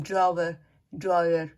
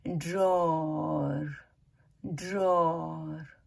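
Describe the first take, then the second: First: ड्रॉवर in two syllables with a clear v; common local pronunciation. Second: ड्रॉअर slow as one long "drawr"; correct pronunciation. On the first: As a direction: say ड्रॉवर as "draa-ver". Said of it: "हम लोग जैसे बोलते हैं". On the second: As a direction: stretch ड्रॉअर, no v in the middle. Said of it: "तो उसका सही जो वो है". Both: Shown as a demonstration.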